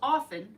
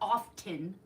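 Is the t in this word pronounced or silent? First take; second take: silent; pronounced. First: The t in the middle is silent. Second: The t in the middle is pronounced. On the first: The speaker calls it right. "it's often" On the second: The speaker calls it wrong. "not often"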